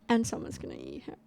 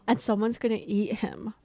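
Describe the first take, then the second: First: The line is said in a serious tone. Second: The line is said in an excited tone. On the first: "I'm gonna do a redo, retake" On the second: "I didn't mean to sound excited about that"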